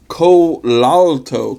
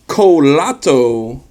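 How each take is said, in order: First: Colalto said slowly with a clear l, falling at the end; slow, careful Colalto with the l sounded, settling down; corrected name. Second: Colato said slowly without the l, rising at the end; first try at the name. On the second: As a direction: Colato drawn out slowly, a questioning rise, missing the l. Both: Shown as a demonstration.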